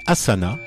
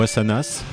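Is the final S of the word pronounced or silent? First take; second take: silent; pronounced. First: The final S is silent. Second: The final S is pronounced.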